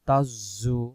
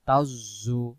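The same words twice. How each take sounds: Both takes have the same delivery.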